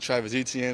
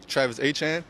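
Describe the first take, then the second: First: The surname has an anglicized English pronunciation. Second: The surname has a Cajun French pronunciation. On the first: This is how people elsewhere say it. "came here" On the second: This is how people back home say it. "How everyone said uh, down there in South Louisiana"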